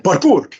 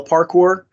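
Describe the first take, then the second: First: Higher yell of PARKOUR in an Arabic accent. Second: Said in the usual way. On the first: Shown as a demonstration. Actor showing how he called parkour for animators, Arabic-accented yell. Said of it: "I would also yell parkour, uh, but with an Arabic accent". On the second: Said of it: "but with an Arabic accent".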